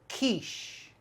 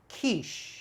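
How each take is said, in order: First: The word starts with K and ends in 'sh'. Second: The word starts with K and ends in 'sh'.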